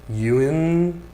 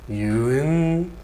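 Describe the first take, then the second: Both takes have the same delivery.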